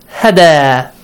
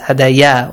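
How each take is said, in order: First: The word ends on a plain long a. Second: The word ends with an added ya sound. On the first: The speaker calls it right. "You should read it" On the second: The speaker calls it wrong. "that's wrong"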